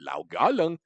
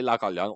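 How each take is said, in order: First: The name is said in a distinctive way. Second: The name is said in a plain way. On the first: "say it in a very distinctive way" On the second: "you can say Lao Ka Leung"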